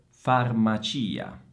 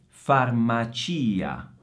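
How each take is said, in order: Both takes have the same delivery.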